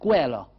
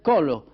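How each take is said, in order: First: It begins with 'ke' and ends in 'a'. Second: It begins with 'ko' and ends in 'o'. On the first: "à Marseille" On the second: "en rhodanien"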